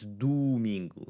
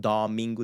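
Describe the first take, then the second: First: "domingo" as "doo-MEEN-goo", slowly; careful Portuguese "domingo", doo and goo. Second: "domingo" with an open "daw" first syllable; anglicized "domingo", first O left as O; wrong English-style O. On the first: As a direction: stretch both O's in "domingo" into oo. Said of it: "it's domingo". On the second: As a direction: say "domingo" with a full O, not oo. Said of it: "It's not domingo". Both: Shown as a demonstration.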